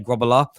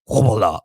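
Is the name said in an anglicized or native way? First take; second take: anglicized; native. First: The name is said with simplified English sounds. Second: The name is said with its original native sounds. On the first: This is an easier version for other people. "there's no way that anyone could say it, so I just said say Grobbelaar" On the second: This is how the owner of the name says it. "it's actually pronounced like Grobbelaar, like this"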